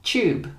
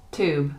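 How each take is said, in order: First: British "Tube" with a ch sound; higher, "Tube" starting like "chew"; British pronunciation. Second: American "tube" with a plain t; "tube" starting like "too"; American pronunciation. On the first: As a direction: say "Tube" as CHOOB. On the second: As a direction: say "tube" as TOOB. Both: Shown as a demonstration. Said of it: "next to each other to hear the difference".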